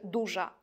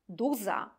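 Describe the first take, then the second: First: The middle consonant is a 'zh' sound. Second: The middle consonant is a plain 'z' sound. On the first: This is the standard form. "a nie" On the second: This is the dialect form. "Czepiec mówi"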